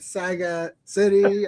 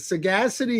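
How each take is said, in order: First: It sounds like two words, saga city. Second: It sounds like the single word sagacity. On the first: The speaker calls it wrong. "I get Saga City" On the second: The speaker calls it right. "is the proper pronunciation"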